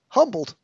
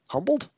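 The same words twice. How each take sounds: First: The word is said more loudly. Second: The word is said at its quietest.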